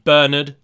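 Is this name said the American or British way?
British. It is said the British way. The speaker calls it right. "feel free to school them on the true meanings"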